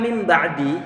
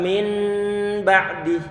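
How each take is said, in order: First: The first word ends with an m sound. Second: The first word ends with a clear n sound. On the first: The speaker calls it right. "nun sukun bertemu dengan ba" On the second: The speaker calls it wrong. "ini lidah kita terlalu ribet"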